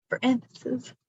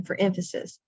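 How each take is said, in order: First: EMPHASIS repeated at a higher pitch; emphatic echo. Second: Said in the usual way. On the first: Shown as a demonstration. Teacher repeats her catchphrase on purpose, emphatic. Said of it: "twice and the second time louder". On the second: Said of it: "I say "for emphasis, for emphasis".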